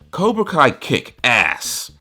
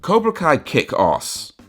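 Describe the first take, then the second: First: It is said in an American accent. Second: It is said in the speaker's usual accent.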